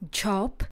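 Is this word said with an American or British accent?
British. British accent, with a rounded 'o' vowel. "V britské angličtině"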